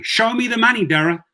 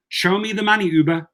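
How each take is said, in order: First: High, emphatic "Show me the money"; mock demand. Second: Higher "Show me the money" repeated, aimed at Uber; mock demand. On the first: Driver taunting the Uber CEO on Twitter, high and punchy. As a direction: demand the cash like a movie line. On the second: Driver repeating the taunt at Uber, high and punchy. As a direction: throw the line at the company.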